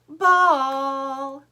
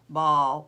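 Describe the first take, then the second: First: It is said with lively, varied tone. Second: It is said in a flat, boring tone.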